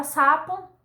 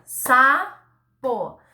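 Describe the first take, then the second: First: Said in the usual way. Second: "sapo" as a long SA, a gap, then PO; sílaba por sílaba. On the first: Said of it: "você vai falar a palavra". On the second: Shown as a demonstration. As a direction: break "sapo" slowly into two syllables. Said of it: "você vai fazer". ("sapo" devagar, separando SA e PO)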